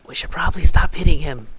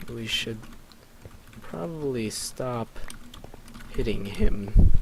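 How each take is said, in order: First: Quick, raised, louder delivery; in-character urging. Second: Word by word with long pauses. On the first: Acted. Player's character urging others to stop hitting Zane, quick urging. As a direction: say it fast and up in pitch, as one phrase. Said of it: "I was like". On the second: Real, not acted. Slowly composing the line before acting it.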